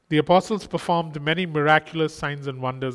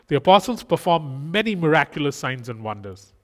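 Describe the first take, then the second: First: It is read flatly, without interest. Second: It is read with lively, engaged interest. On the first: The speaker calls it wrong. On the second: The speaker calls it right.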